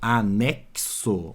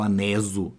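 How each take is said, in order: First: The middle consonant is a ks sound. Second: The middle consonant is a plain s sound. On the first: The speaker calls it right. "Eu falo anexo. ... esse X tem som de C S" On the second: The speaker calls it wrong. "Eu não falo aneso, não"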